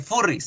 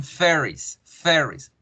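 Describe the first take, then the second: First: "furries" with a Spanish U and rolled R; plain Spanish reading of furries; wrong Spanish way. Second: "furries" with the rounded English ER vowel; English er sound. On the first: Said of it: "no se dicen furries". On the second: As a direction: say "furries" like fer-ries. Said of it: "se dicen furries". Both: Shown as a demonstration.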